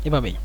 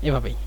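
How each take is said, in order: Both takes have the same delivery.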